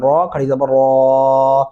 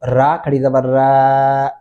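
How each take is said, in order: First: The r sound is heavy and full. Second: The r sound is light and thin. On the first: The speaker calls it right. "रॉ मोटा और पुर करके पढ़ेंगे" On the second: The speaker calls it wrong. "ऐसे नहीं करना"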